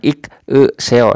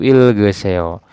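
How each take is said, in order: First: The second syllable starts with a vowel. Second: The second syllable starts with a g sound. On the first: The speaker calls it wrong. "bukan ik e seo, salah ya" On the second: The speaker calls it right. "Jadi dibacanya itu il ge seo"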